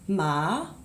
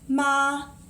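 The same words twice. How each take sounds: First: The pitch rises toward the end. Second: The pitch stays high and level. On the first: "then second tone" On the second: "first tone"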